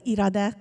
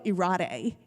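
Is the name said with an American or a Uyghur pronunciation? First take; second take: Uyghur; American. First: The name has a native Uyghur pronunciation. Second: The name has an American English pronunciation. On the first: "Right now I said Irade Kashkari" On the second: "they'll pronounce it differently"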